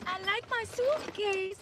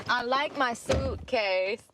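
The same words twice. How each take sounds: First: Put-on high, slow little-kid Slovenian accent; Barron Trump. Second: Slow, lightly put-on Slovenian-accented boy; Barron Trump. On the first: Quoting Trump's son from the viral clip, high accented child voice. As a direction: mimic a small accented boy, pitched way up. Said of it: "That's what he says". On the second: Repeating what Trump's son says, slow accented imitation. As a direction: stretch it out with a hint of a child's Slovenian accent. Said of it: "With his little".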